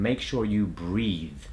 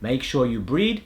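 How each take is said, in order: First: The last word ends with a th sound. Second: The last word ends with a d sound. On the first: The speaker calls it right. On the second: The speaker calls it wrong.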